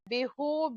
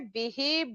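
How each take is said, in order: First: The word ends in an 'u' vowel. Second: The word ends in an 'i' vowel. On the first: The speaker calls it wrong. "नहीं बोलेंगे" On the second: The speaker calls it right. "बल्कि बिही बिहिम बोलेंगे"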